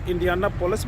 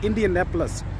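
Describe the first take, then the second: First: It is said with a full 'Indiana' sound. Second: It is said with a shorter 'Indian' sound. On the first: Some people say it this way. "कुछ लोग इंडियानापोलिस भी कहते हैं" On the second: Local people say it this way. "Actual जो word जहाँ पे लोग इसको प्रोनाउंसिएट करते हैं"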